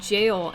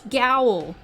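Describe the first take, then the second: First: The word starts with a soft j sound. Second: The word starts with a hard g sound. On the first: The speaker calls it right. "he pronounced it jail" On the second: The speaker calls it wrong. "That's not how you pronounce that, Vinny. It's Gowl"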